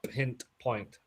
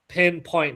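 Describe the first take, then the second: First: It is said with a t before point. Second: It is said with no t before point. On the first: The speaker calls it wrong. "not pint point" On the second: The speaker calls it right. "pinpoint, not pint point"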